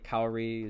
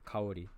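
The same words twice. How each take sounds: First: The name is said with an English accent. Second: The name is said with a Japanese accent. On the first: "I say Kaori as an as an English speaker" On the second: "the correct pronunciation would be Kaori"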